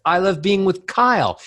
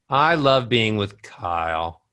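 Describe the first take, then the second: First: Happy lifted tune peaking on "Kyle"; ascending melody. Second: Tune steps down to a low KYLE; low, sad falling cadence on "Kyle"; descending melody. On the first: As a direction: pitch climbs high toward KYLE. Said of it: "Ascending melodies". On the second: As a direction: let "Kyle" sink at the end. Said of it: "Descending melodies". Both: Shown as a demonstration.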